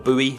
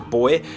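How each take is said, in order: First: It is said with an American pronunciation. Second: It is said with a British pronunciation.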